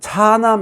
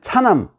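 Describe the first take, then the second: First: The first vowel is long. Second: The first vowel is short. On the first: The speaker calls it right. "차남 이래야지" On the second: The speaker calls it wrong. "이렇게 읽으면 안 되죠"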